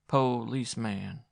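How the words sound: The word is said in one piece, accusingly. "she said accusingly"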